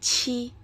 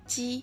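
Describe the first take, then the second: First: The consonant is said with a puff of air. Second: The consonant is said without a puff of air. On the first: "Kalau kalian bacanya ada hembusan udara, berarti kalian udah baca yang ini nih" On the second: "tanpa ada hembusan udara yang keluar ya"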